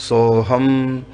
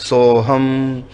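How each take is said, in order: Both takes have the same delivery.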